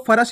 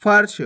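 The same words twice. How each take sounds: First: फर्श split as "fa-rash"; wrong full "ra". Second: फर्श as one syllable, "farsh"; half "r" in फर्श. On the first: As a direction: say फर्श with a vowel after r, "farash". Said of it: "नहीं पढ़ना". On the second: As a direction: join r straight to sh in फर्श. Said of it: "आपको फर्श नहीं पढ़ना". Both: Shown as a demonstration.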